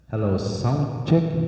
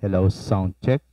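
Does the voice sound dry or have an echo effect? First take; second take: echo; dry. First: The voice has an added echo effect. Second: The voice sounds plain with no added echo. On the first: "pag i- ano mo yung effects niya" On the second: "i-off natin dito"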